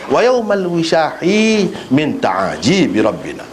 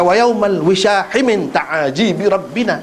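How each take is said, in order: First: The vowel after 'wishah' is drawn out long. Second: The vowel after 'wishah' is short. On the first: The measure becomes complete in its original form. The speaker calls it right. "kalau baca lagu tu, ha, dia bermakna tam" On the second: The measure stays in its changed form. The speaker calls it wrong.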